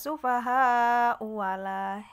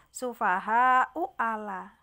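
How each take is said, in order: First: A w sound joins the two vowels. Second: A glottal stop separates the two vowels. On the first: This is the reading when joined to the next words. "Mengganti dengan huruf wawu hamzah di sini. Ala menjadi wala" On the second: This is the original form.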